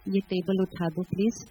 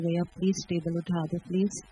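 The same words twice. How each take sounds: First: Said in the usual way. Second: A sweeter, coaxing plea on "please"; asking more lovingly. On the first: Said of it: "फिर मैं पाँच minute के बाद और प्यार से बोलूँ". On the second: Shown as a demonstration. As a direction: soften the request, with extra affection. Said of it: "और प्यार से बोलूँ".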